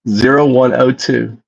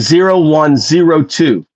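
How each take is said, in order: First: The third digit is read as oh. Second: The third digit is read as zero. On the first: The speaker calls it wrong. "you're using the lower the, the O instead of the zero?" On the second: The speaker calls it right. "Just say zero one zero two"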